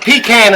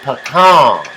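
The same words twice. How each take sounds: First: The first syllable sounds like 'pee'. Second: The first syllable does not sound like 'pee'. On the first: The speaker calls it wrong. "A pecan is something you pee in" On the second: The speaker calls it right. "It's pecan"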